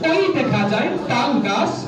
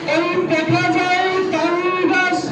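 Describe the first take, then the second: First: It is recited in an ordinary natural voice. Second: It is recited in a preacher's sermon-like delivery.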